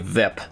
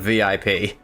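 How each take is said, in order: First: It is said as a single word. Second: Each letter is said separately. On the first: The speaker calls it wrong. "they just say V I P" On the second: The speaker calls it right. "it's every letter instead of a word"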